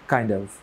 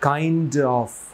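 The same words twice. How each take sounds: First: It is said quickly with sounds dropped. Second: Every sound is said fully and slowly. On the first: The speaker calls it right. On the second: The speaker calls it wrong.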